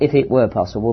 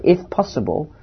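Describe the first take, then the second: First: Said in the usual way. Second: "if possible" said as a short phrase with a falling stress on "if". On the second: Shown as a demonstration. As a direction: lean on "if" and drop "were".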